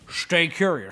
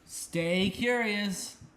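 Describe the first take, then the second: First: The s in stay sounds like sh. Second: The s in stay sounds like a plain s. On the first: The speaker calls it right. "say it with the with the S H" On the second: The speaker calls it wrong. "you can do better than that"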